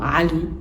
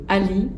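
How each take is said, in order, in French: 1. Elle commence par un son serré et guttural. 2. Elle commence par une voyelle plate et ouverte. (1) "c'est à ce prix-là que vous pourrez redonner toute sa beauté sonore au prénom Ali" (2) "Ce sera toujours mieux que Ali"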